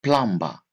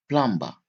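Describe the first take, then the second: No difference in how they are said.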